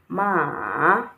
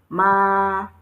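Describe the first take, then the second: First: The pitch dips down and then rises. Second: The pitch stays level and flat. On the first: "it fell, then it rose" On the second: "The first one has a flat tone on the A"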